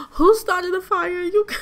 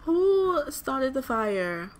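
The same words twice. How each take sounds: First: High, loud shriek of disbelief; shocked outburst. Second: Drawn-out, incredulous question; slow demand. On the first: Gamer reacting to a sudden fire in the game, shocked outburst. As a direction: cry it out, shocked, breaking off into a laugh. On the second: Gamer asking again who caused the fire, slow demand. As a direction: stretch out WHO and slow right down. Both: Real, not acted.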